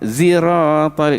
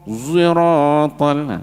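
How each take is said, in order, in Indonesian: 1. Konsonan pertama diucapkan dengan bibir biasa, tidak membulat. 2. Konsonan pertama diucapkan dengan bibir dimonyongkan dan membulat. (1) "Kalau biasa ihdina zirat, ziratal, itu zai" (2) "Tapi muncung"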